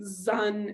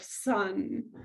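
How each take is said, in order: First: The first sound is a voiced z. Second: The first sound is a voiceless s. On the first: "Voiced consonants are easier for kids" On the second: "instead of"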